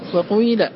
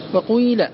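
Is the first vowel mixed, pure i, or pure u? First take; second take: mixed; mixed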